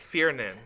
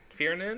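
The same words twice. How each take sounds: First: Said in the usual way. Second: "Fiernan" with a rising question at the end; questioning tune. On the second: Real, not acted. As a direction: check "Fiernan" softly, pitch lifting at the end. Checking how the name is said.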